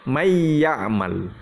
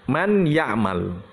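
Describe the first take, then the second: First: The n sound merges into the following y. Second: The n sound is clearly pronounced before y. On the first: "Tapi kita idghamkan. Bacanya" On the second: "itu kalau aslinya"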